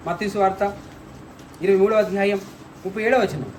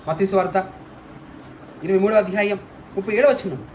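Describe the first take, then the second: No difference in how they are said.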